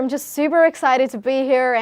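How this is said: It is spoken in an American accent.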